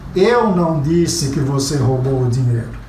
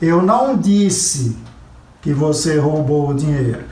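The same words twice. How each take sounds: First: The stress falls on the word eu. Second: The stress falls on the word disse. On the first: Someone else said it. "estou dizendo que alguém disse, não fui eu" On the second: It was only implied. "Eu insinuei, eu sugeri, eu dei a entender, mas eu não disse"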